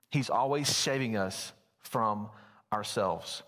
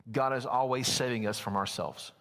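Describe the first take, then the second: First: Slow down on "saving us", then set "ourselves" apart; slow emphasis. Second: Said in the usual way. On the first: Real, not acted. Preacher repeating to the congregation that God saves us, slow and deliberate. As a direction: pause after "from" and let "ourselves" drop.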